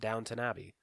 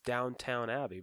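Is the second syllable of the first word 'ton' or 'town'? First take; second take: ton; town. First: The second syllable sounds like 'ton'. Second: The second syllable sounds like 'town'. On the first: "people pronounce it Downton Abbey" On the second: "that's how you should pronounce it"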